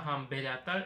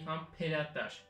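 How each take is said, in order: First: The consonant after 'ham' is a b sound. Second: The consonant after 'ham' is a p sound. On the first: The speaker calls it wrong. "on ne dit pas hamberatar" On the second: The speaker calls it right. "on dit hamperatar"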